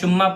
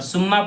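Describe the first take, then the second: First: The word begins with a sh sound. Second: The word begins with a plain s sound. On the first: "शुम्मा पढ़ेंगे ... तो गलत हो जाएगा" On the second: "सुम्मा पढ़ेंगे ... तो गलत हो जाएगा"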